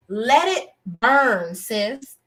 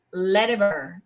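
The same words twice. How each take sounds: First: Slow, drawn-out let it burn. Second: Said in the usual way. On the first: Real, not acted. Reviewer urging the show to end the storyline, drawn out slowly. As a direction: stretch each word, let it burn.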